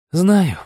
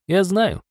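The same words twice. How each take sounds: First: Said in the usual way. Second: Sighing. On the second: Acted. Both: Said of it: "вздохнул я".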